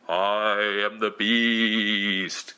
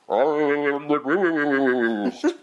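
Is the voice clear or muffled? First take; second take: clear; muffled. First: A clear, booming echoing voice is used. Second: A muddled voice is used, hard to make out.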